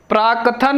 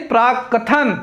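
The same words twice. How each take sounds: First: प्राकथन with a single k, prā-kathan; wrong pronunciation. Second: प्राकथन with doubled k, prāk-kathan; correct pronunciation. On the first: Teacher showing the mistake, wrong pronunciation. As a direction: pass lightly over the k in प्राकथन. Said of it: "प्राकथन नहीं". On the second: Teacher correcting the word, correct pronunciation. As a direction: hold the k in प्राकथन. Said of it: "प्राकथन शुद्ध शब्द है". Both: Shown as a demonstration.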